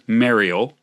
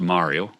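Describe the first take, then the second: First: The name is said with a Canadian pronunciation. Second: The name is said with a non-Canadian pronunciation. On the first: "I'm going to say it the Canadian way" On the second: "as opposed to"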